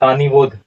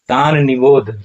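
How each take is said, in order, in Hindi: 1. दोनों शब्द जुड़कर एक शब्द की तरह बोले जाते हैं। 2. दोनों शब्द साफ़-साफ़ अलग-अलग बोले जाते हैं। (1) "अक्सर लोग इसका उच्चारण करते हैं तानिबोध, लेकिन तानिबोध उच्चारण नहीं होगा।" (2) "यहाँ पर इसका उच्चारण होगा तान और तब निबोध"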